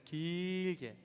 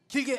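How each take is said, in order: First: The word is stretched out and drawn long. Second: The word is said quickly and clipped short. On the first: The speaker calls it right. "길게는 길게 발음해야지" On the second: The speaker calls it wrong. "길게 하는 게 아니라"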